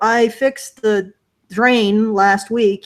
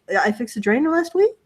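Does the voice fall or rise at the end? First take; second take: fall; rise. First: The voice falls at the end like a statement. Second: The voice rises at the end like a question. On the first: The speaker simply states what they did. The speaker calls it right. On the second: The speaker sounds unsure and seeks agreement. The speaker calls it wrong.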